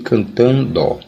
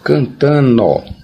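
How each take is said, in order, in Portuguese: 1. Usa a pronúncia padrão. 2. Usa uma pronúncia popular, não padrão. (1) "em vez de" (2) "alguns dizem"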